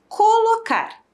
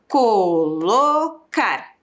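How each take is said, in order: First: Said in the usual way. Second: Co-lo-car bem devagar, sílaba por sílaba; separando as sílabas. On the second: Shown as a demonstration. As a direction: estique colocar marcando cada sílaba. (colocar dito bem lento, sílaba a sílaba) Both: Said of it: "Quantas sílabas?".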